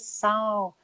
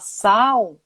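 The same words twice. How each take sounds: First: The word ends with a clear L sound. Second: The word ends with a U-like vowel sound. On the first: This matches how the word is written. "mas é sal" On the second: This is how people usually say it. "A gente fala sal"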